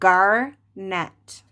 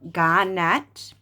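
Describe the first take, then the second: First: It is said in a neutral accent. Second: It is said in a Boston accent.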